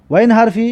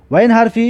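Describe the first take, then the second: No difference in how they are said.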